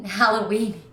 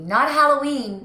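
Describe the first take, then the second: First: Said in the usual way. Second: "Halloween" said slowly as the wrong Halloweeny; not Halloweeny. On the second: Shown as a demonstration. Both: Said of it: "Halloweeny is frying me".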